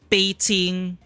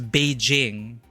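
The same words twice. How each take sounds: First: The name is said with a Chinese pronunciation. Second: The name is said with an English pronunciation. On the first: The speaker calls it right. "but it's Beijing" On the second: The speaker calls it wrong. "In quote unquote English"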